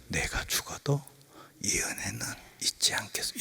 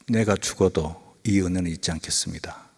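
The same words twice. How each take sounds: First: It is said very slowly and weakly. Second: It is said at a normal pace.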